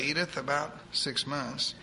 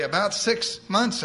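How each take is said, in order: First: Softer repeat. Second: Slow, lifted answer with a hint of triumph; almost triumphant. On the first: Acted. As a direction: let it settle gently. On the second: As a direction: announce it like good news. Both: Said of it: "answered almost triumphantly".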